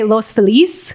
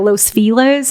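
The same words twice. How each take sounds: First: The name is said with a Spanish pronunciation. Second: The name is said with an English pronunciation. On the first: This is the proper way the name is said. The speaker calls it right. "you would say" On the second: This is how outsiders changed the name. The speaker calls it wrong.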